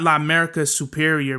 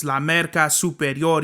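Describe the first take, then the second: First: "La Merca Superior" in flat English vowels, "Superior" as soo-PEER-ee-er; "La Merca Superior" with an American English accent; anglicized La Merca. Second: "La Merca Superior" with Spanish vowels and a tapped r, soo-peh-RYOR; "La Merca Superior" with a Spanish accent. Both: Shown as a demonstration. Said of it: "You gotta say that shit".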